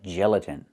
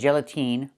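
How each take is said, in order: First: The last vowel is a short I sound. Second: The last vowel is a long E sound. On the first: The speaker calls it right. "It's the short I like this is" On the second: The speaker calls it wrong. "not gelatine"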